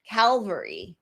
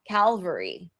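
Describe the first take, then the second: First: It starts with 'cal', the 'l' comes first. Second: The same.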